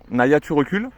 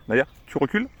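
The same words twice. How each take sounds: First: Louder, rising "recules"; firm command. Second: Said in the usual way. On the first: Shown as a demonstration. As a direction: give the order firmly. (ordonner fermement à la chienne de reculer) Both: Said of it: "on va mettre ça sur le recul".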